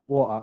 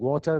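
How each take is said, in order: First: The middle consonant is a glottal stop. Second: The middle consonant is a clear t sound. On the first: "the T is pronounced as a. ... they said water" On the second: "instead of saying water"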